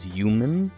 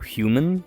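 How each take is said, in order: First: The word begins with no H sound. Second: The word begins with a clear H sound.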